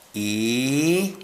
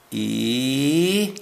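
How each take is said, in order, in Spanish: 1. El tono de la vocal baja. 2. El tono de la vocal baja.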